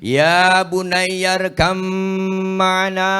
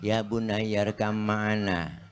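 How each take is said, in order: First: It is called out loudly as if from afar. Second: It is said flatly like a plain speech. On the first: The speaker calls it right. "tuh gaya memanggil" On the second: The speaker calls it wrong. "Masa pidato ... kurang menarik itu mah"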